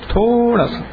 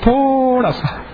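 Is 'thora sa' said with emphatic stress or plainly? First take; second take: plain; emphatic. First: It is said plainly with no extra emphasis. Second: It is said with heavy, drawn-out emphasis. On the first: Only a small amount is meant. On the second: Actually a great deal is meant.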